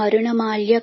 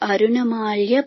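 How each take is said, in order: First: The word begins with an m sound. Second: The word begins with an a vowel. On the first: The speaker calls it wrong. "మరుణమాల్య కాదు" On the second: The speaker calls it right. "ఇక్కడ మళ్ళీ మార్చుకోవాలండి"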